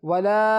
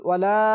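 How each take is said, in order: Both takes have the same delivery.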